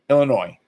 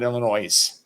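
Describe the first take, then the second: First: The word ends without an s sound. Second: The word ends with a buzzing s sound. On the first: The speaker calls it right. "Illinois, not Illinois, right?" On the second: The speaker calls it wrong. "Which is very noisy when someone says that"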